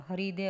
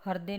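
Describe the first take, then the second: First: हृदय said as "haridey"; sounded "ri" in हृदय; correct pronunciation. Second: हृदय said as "hardey"; no "i" after r in हृदय; wrong pronunciation. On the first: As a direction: say हृदय as ha-ri-dey. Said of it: "हृदय होता है". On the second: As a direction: misread हृदय as har-dey. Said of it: "हृदय नहीं होता". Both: Shown as a demonstration.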